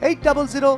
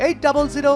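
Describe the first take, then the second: No difference in how they are said.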